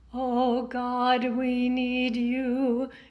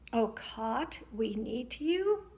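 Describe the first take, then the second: First: The g in God sounds fully voiced. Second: The g in God sounds unvoiced, like k. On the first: The speaker calls it right. "A little more in the middle, that balanced sound" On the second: The speaker calls it wrong. "having voiced consonants become unvoiced"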